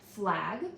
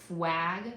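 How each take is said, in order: First: An l sound follows the f. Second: A w sound follows the f. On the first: The speaker calls it right. "the f is a cluster" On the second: The speaker calls it wrong. "changing the L to a W"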